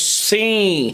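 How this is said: The word is said with puckered, rounded lips. "it was sea. So she's almost warming up those fricative"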